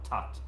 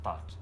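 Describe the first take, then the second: First: The word begins with a plain t sound. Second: The word begins with a th sound. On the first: The speaker calls it right. "it's now tat" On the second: The speaker calls it wrong. "and not that"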